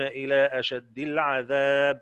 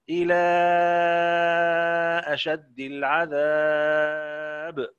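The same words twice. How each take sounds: First: The vowel before the glottal stop is held short. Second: The vowel before the glottal stop is held long. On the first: "القصر وأهل القصر" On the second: "ورش"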